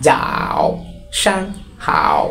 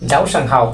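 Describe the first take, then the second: First: "যাও সাং হাও" slow and separated, "যাও" and "হাও" dipping very low; third tone. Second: Said in the usual way. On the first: Shown as a demonstration. ("যাও সাং হাও" থেমে থেমে, তৃতীয় টোনে টেনে) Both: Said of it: "তাহলে উচ্চারণ হবে".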